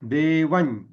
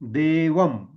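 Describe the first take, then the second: First: It ends in a palatal ny nasal. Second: It ends in a labial m nasal. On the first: "च वर्गीय अनुनासिक वापरलं" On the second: "म वर्गीय अनुनासिक वापरलं"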